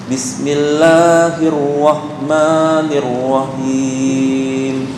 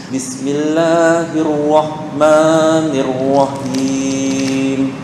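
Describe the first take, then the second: No difference in how they are said.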